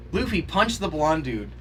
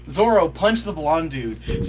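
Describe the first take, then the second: First: Said in the usual way. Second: More insistent. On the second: Real, not acted. Egging characters on at screen.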